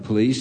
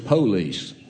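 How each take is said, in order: First: It is said in a standard, non-Southern way. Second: It is said in a Southern Alabama accent. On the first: "it's not the police" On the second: "here in Alabama, ... it's the police"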